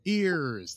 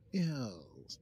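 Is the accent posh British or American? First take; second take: American; posh British. First: It is said in an American accent. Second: It is said in a posh British accent.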